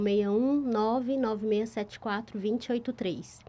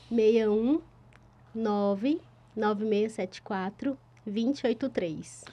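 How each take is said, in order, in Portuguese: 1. Os dígitos são lidos mais depressa. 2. Os dígitos são lidos mais devagar.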